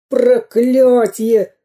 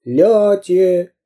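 First: High, very slow curse; long-drawn villainous wail; bandit's howl. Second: Raised, falling echo of a cry; drawn-out echo call; loud echo. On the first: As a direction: howl it out in frustration. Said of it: "завопил разбойник". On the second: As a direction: throw the tail of the word back. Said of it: "громко повторило эхо". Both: A narrator's reading.

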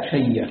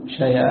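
First: شيء said with the hamza merged into a doubled ya; idgham pronunciation. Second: شيء said with the hamza dropped, its vowel moved onto the ya; naql pronunciation. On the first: Teacher showing Hamza's reading by idgham, doubled ya in شيء. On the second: Teacher showing Hamza's reading by naql, hamza dropped in شيء. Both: Shown as a demonstration. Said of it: "له النقل والإدغام".

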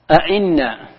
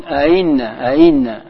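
First: أئنا with both hamzas pronounced in full; أئنا with a clear glottal stop on both hamzas; tahqiq reading. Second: أئنا with the second hamza softened, no hard stop; أئنا with an eased, lengthened second hamza; tasheel reading. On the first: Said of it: "أي تنطق بالهمزتين جميعا". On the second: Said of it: "ما تنطقها بقوة". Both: Shown as a demonstration.

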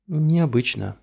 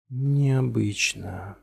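First: Said in the usual way. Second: Slow, stretched, distant echo; time-smeared echoing voice. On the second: A narrator's reading. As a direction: let the word drift back like an echo. Word echoes back in a haze.

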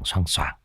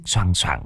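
First: Much softer, lower, dying away; a soft ghostly echo of the chain; fading echo. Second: Said in the usual way. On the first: A narrator's reading. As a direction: let it fade like a distant echo. Echoing the rattling chain.

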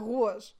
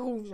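First: "rouge" said as "rou-age"; Saguenay pronunciation. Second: Said in the usual way. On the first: Shown as a demonstration. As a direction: say "rouge" with a diphthong, roo-ahzh. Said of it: "Au Saguenay, là". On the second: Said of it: "Ils vont dire rouge".

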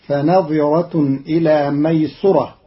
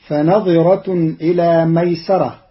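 First: ميسرة said "maysurah", u after the s; damma on seen. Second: Said in the usual way. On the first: Shown as a demonstration. Teacher shows Qalun's reading, ميسرة with damma on seen. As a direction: round the s of ميسرة into "su", not "sa". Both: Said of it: "بضم السين".

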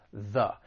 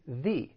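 First: THE as a weak "thuh"; unstressed, relaxed "thuh" for THE; schwa in THE. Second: THE said as "thee"; full "thee" pronunciation of THE; long-E THE. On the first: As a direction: say THE with a soft uh vowel. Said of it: "with the schwa sound". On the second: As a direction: say THE with a clear ee vowel. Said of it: "comes before a vowel sound". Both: Shown as a demonstration.

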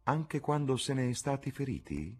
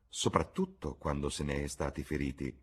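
First: High, rising question on "feriti"; searching question. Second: "Soprattutto" set low, a calm statement; measured answer. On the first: Duchess questioning Harry on being hurt, high rising tone. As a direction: lift "Anche quando se ne è stati feriti" into a question. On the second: Lord Henry answering the duchess, low and measured. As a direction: answer "Soprattutto quando se ne è stati feriti" evenly, low. Harry answers by echoing her words. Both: A narrator's reading.

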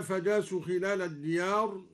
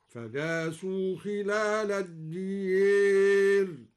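First: Said in the usual way. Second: Slow chant, الديار with the long a bent to e; imala on الديار. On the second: Shown as a demonstration. Teacher recites al-Duri's reading, الديار as adiyer. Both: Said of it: "أمال الدوري الديار هكذا".

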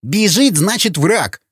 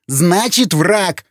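First: Heated, high-pitched snarl; angry retort. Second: Higher, emphatic insistence; raised voice. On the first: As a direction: insist angrily, pitch raised. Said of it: "зло прорычал Сквернослов". (злое рычание на повышенном тоне) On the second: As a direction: insist over the objection. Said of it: "повысил голос Вячеслав". (настойчиво, повысив голос) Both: Acted.

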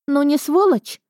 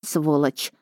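First: High, outraged rhetorical question; aggrieved and high; indignant. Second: Low-key, careful echo; guarded and subdued; cautious agreement. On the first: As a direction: throw it out indignantly, pitched up. Friend's indignant complaint, then echoed. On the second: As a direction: agree carefully, holding back. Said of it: "согласилась я осторожно". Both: A narrator's reading.

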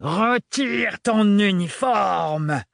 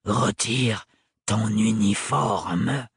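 First: Roared order. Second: Cold repeated order. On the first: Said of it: "rugit le sans-peur". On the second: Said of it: "répéta-t-il". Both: Acted.

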